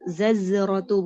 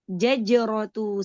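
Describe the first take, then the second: First: It starts with z, then another z sound. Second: It starts with j, then another j sound. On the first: "Bukan juga zazrot zazratu bukan" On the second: "Jangan jim semua. Jaj jajratu salah"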